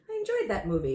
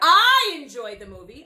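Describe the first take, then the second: First: The word I is not stressed. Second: The word I is strongly stressed.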